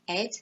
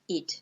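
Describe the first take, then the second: First: The ending has an 'e' vowel. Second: The ending has a short 'i' vowel. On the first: The speaker calls it wrong. "not ed" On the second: The speaker calls it right. "we pronounce it id"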